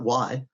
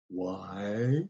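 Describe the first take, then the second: First: The word is said quickly and lightly. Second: The word is drawn out slowly and deliberately. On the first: The speaker calls it wrong. "Not why" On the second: The speaker calls it right. "Rom is slow"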